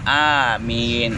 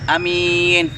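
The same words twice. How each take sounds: First: Both the first and second vowels are long. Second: The first vowel is short, the second long. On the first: It asks that the prayer be granted. The speaker calls it right. "Benar-benar a-nya panjang, mimnya panjang" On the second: It names a praiseworthy, trustworthy person. The speaker calls it wrong. "kalau misalnya a-nya pendek, mimnya panjang"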